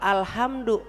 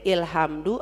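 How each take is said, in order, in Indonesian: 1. Kata itu dimulai dengan vokal 'a'. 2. Kata itu dimulai dengan vokal 'i'. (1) "bacanya al karena ada lam" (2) "Ini bacanya ilhamdu apa ulhamdu?"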